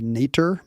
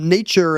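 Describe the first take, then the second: First: The middle consonant is a plain t sound. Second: The middle consonant is a ch sound.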